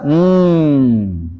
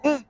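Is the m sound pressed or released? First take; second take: released; pressed. First: The m sound is released loosely. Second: The m sound is pressed and held back. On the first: "Kalau dilepas" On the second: "Mim kalau ditekan bunyinya"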